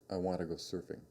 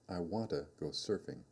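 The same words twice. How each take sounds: First: It is said quickly, with "to" reduced to "ta". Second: It is said slowly, with a full "to". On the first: "Now say these sentences quickly" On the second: "say these sentences slowly"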